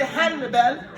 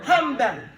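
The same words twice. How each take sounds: First: "Hanbal" with a separate, sounded n, han-bal; unassimilated n. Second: "Hanbal" said as ham-bal, m before the b; n turned to m. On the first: Teacher shows what we don't say, "Hanbal" with clear n. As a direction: keep a distinct n before the b in "Hanbal". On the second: Teacher corrects the name, "Hanbal" with m for n. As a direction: close the lips early, an m for the n in "Hanbal". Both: Shown as a demonstration. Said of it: "We don't say Hanbal".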